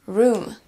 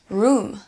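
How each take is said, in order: No difference in how they are said.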